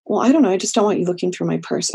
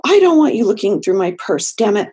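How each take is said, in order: First: Said in the usual way. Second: Louder, firmer boundary with bite; with more teeth. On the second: Shown as a demonstration. Client asserting a boundary to the therapist, louder and firm. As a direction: put teeth into it, mean it. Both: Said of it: "can we put a little bit more teeth into that".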